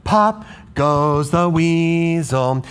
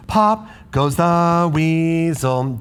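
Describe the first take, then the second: First: Right rhythm. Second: Wrong rhythm. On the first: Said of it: "This syllable is on the fourth one". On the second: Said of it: "That doesn't sound right". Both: Shown as a demonstration.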